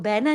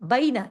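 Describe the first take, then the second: First: The first vowel is a flat single e sound. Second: The first vowel glides from a toward i. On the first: The speaker calls it wrong. "इसको बैना नहीं पढ़ेंगे" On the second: The speaker calls it right. "क्योंकि ये यालीन है"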